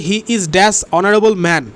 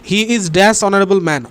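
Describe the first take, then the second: Both takes have the same delivery.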